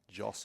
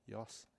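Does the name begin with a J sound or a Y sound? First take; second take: J sound; Y sound. First: The name begins with a J sound. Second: The name begins with a Y sound. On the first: "I've also been calling him Joss" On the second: "here you go"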